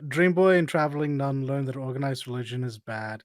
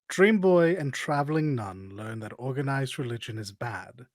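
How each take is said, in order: First: The sentence is spoken at a quicker pace. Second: The sentence is spoken at a slower pace.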